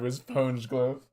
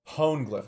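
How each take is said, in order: First: The g sound is said twice. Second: The g sound is said only once. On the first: The speaker calls it wrong. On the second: The speaker calls it right.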